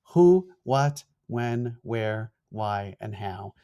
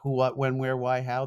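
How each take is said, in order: First: The list is spoken slowly. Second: The list is spoken quickly. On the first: "I'll say it slower" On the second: "because I'm a fast talking New Yorker"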